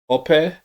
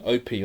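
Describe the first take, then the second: First: The name is said the traditional Nigerian way. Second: The name is said the English way. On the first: The speaker calls it right. "traditionally it's pronounced Ope" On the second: The speaker calls it wrong. "we might say in England Opie"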